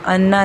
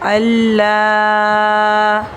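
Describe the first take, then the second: First: The middle consonant is a doubled n. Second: The middle consonant is a doubled l. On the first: The speaker calls it wrong. "अन्ना नहीं है, नून को हमने नहीं पढ़ना" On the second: The speaker calls it right. "हमज़ा को लाम के साथ मिला देना है"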